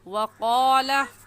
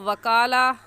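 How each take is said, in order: First: It begins with a 'w' sound, lips rounded. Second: It begins with a 'v' sound, lips not rounded. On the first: The speaker calls it right. "होंठों को गोल करके पढ़ेंगे और ऐसे कहेंगे" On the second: The speaker calls it wrong. "वकाला कहना गलत है"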